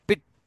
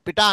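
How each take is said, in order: First: The t sound is doubled and held long. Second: The t sound is single and short. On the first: The speaker calls it right. "ఇట్లాంటి ఒత్తి పలకాల. పిట్ట అనాల" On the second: The speaker calls it wrong. "పిట అనకూడదు"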